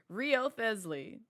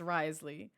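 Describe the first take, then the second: First: The name is said with four syllables. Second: The name is said with two syllables. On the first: The speaker calls it wrong. "that's what I thought his name was pronounced" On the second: The speaker calls it right. "It's Risley"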